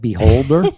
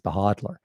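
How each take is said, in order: First: The name is said like the word beholder. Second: The name is said as behodler, l after d. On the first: The speaker calls it wrong. "I called it Beholder. I do mispronounce most crypto" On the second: The speaker calls it right. "he's right. It's Behodler"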